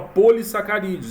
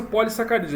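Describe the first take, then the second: First: Put-on "polissacarídeos" with a closed, unaccented O; mispronounced word. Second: "polissacarídeos" with an open, accented O; correct pronunciation. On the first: Teacher quoting the text-to-speech error, closed-O mispronunciation. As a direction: imitate the machine reading "polissacarídeos" with closed O. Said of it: "Ele fala". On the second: Shown as a demonstration. Teacher giving a second example of the fix, open-O pronunciation. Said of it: "Mesma coisa".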